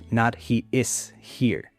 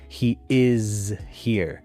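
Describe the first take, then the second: First: 'Is' has a long E vowel and ends in S. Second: 'Is' has a short I vowel and ends in Z. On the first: The speaker calls it wrong. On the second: The speaker calls it right.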